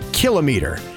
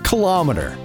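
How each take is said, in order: First: Said as kilo plus meter, like kilogram. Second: Said without the separate kilo plus meter parts. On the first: The speaker calls it right. "it's kilometer" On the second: The speaker calls it wrong. "It's not kilometer"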